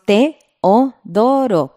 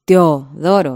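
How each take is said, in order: First: Teodoro said with e and o in separate syllables, Te-o-do-ro; hiatus pronunciation. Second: Teodoro with e and o run together into one syllable, like tjoðoro; wrong pronunciation. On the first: Teacher showing the right way, vowels separated. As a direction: keep the e and o of Teodoro fully apart. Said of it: "Decimos Teodoro para separar en sílabas". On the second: Teacher showing the wrong way, vowels merged. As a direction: squeeze the e-o of Teodoro into a glide. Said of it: "No decimos Teodoro". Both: Shown as a demonstration.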